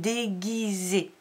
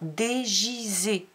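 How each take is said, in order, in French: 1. Le g est dur, comme dans go. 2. Le g est doux, il se prononce comme un j. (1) "on veut entendre déguisé" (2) "Sinon, on entend dégisé. Et c'est pas ce qu'on veut entendre"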